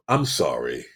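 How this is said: It sounds genuine and heartfelt. The person truly regrets it. "And you know they meant it"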